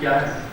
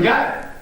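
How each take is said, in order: First: It is asked in a gentle, polite tone. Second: It is asked in a harsh, angry tone. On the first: A respectful inquiry about what the matter is. "बहुत विनम्रता से गुरु जी पूछ रहे हैं" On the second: The listener is being insulted. "तुम्हें बहुत गलत ढंग से बोला हूं"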